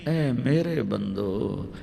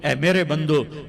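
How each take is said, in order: First: It is said in a tender, loving tone. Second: It is said in a plain, flat tone.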